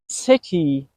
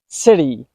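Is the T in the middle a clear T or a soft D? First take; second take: clear T; soft D. First: The middle T is a clear T sound. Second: The middle T is a quick soft D sound. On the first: The speaker calls it wrong. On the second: The speaker calls it right.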